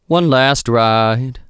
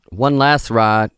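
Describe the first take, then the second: First: The T at the end of 'last' is clearly sounded. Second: The T at the end of 'last' is dropped. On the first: The speaker calls it right. "Make sure that I close that T" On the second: The speaker calls it wrong. "and not one last ride. Nope"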